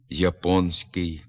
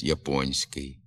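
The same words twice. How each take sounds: First: «японський» with soft нь, said slowly; wrong soft н. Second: «японський» with hard н before soft сь, slowly; correct hard н. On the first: Teacher shows the common mistaken pronunciation. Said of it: "вимовляється ... замість". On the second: Teacher gives the correct standard pronunciation. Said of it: "замість". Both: Shown as a demonstration.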